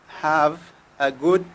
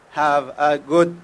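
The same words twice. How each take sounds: The two takes are said the same way.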